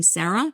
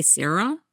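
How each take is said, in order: First: "Sarah" said the New Jersey way; own Sarah. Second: "Sarah" said the Bellingham way, first vowel like air. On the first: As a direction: say "Sarah" with a Jersey first vowel. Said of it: "I say the name Sarah". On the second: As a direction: say "Sarah" as Sair-ah. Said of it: "They say Sarah". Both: Shown as a demonstration.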